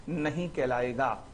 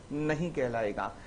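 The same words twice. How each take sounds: The two takes are said the same way.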